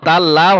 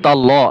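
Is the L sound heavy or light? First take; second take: light; heavy. First: The L is pronounced light and thin. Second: The L is pronounced heavy and full. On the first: The speaker calls it wrong. "তাল্লাহ তাল্লাহ হবে না" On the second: The speaker calls it right. "লাম মোটা হবে"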